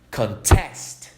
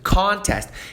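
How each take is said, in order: First: The stress is on the second syllable. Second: The stress is on the first syllable. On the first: It is a verb meaning to dispute something. "ênfase no final" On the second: It is a noun meaning a competition. "Dando ênfase aqui no começo"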